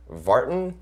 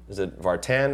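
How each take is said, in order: First: "Vartan" as VAR-tn, second vowel swallowed, questioning; first-syllable stress. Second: "Vartan" as var-TAN, with a clear "tan"; full second vowel. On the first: Imitating people guessing at his surname "Vartan", VAR-tn with weak ending. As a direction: say "Vartan" with a reduced, unstressed ending. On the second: Imitating people guessing at his surname "Vartan", var-TAN with full vowel. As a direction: say "Vartan" with the ending rhyming with "man". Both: Retold or imitated. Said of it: "much more hard time with my last name".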